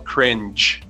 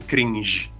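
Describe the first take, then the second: First: The g is soft, like the j in jam. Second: The g is hard, like the g in go. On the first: The speaker calls it right. "C-R-I-N-G-E se fala cringe" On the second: The speaker calls it wrong. "não cringe"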